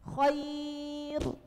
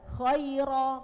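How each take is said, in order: First: The r is thin, and the word ends without a vowel. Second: The r is thick, followed by a final vowel. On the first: The word is read at a stop. "Kalau wakaf jenengan harus bacanya tipis" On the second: The word is joined to what follows. "tetapi ketika jenengan wasol harus tebal"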